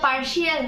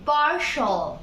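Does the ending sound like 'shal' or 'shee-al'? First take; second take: shee-al; shal. First: The ending is said as 'shee-al'. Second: The ending is said as 'shal'. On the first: The speaker calls it wrong. "এটা পার্শিয়াল না" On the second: The speaker calls it right. "এটা হবে"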